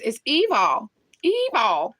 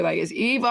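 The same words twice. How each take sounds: First: Tracy Barbie's evil. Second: Said in the usual way. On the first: Retold or imitated. Imitating how a YouTuber says evil, higher. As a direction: mimic a dramatic "It's evil", stretched and pitched up. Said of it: "gonna say evil like Tracy Barbie". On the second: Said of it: "I'm gonna say evil like Tracy Barbie".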